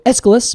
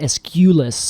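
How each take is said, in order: First: The middle 'u' syllable is only lightly emphasized. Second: The middle 'u' syllable is strongly emphasized. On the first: The speaker calls it right. "I would just go Aeschylus" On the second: The speaker calls it wrong. "I wouldn't put so much emphasis on the U"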